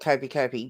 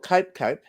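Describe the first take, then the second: First: Each word ends with an added 'ee' vowel. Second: Each word ends plainly, with no added vowel. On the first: The speaker calls it wrong. "But most people call it Copey Copey" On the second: The speaker calls it right. "called Cope Cope"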